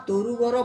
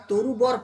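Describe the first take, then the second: The two takes are said the same way.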